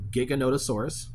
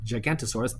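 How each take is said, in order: First: The name is said with a middle 'no' syllable. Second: The name is said without a middle 'no' syllable. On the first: The speaker calls it right. "the Giganotosaurus" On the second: The speaker calls it wrong. "not Gigantosaurus"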